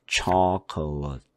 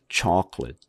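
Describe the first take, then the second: First: The middle vowel is pronounced fully and clearly. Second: The middle vowel is weak or nearly dropped. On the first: The speaker calls it wrong. "chocolate 그러지 말고" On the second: The speaker calls it right. "chocolate 아니면 chocolate 이런 식으로 발음을 내면은 돼요"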